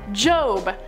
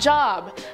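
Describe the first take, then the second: First: The vowel is long, rhyming with robe. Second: The vowel is short, rhyming with rob. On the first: The speaker calls it right. "I was a silly little fool last time I said it and pronounced it wrong" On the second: The speaker calls it wrong. "not Job"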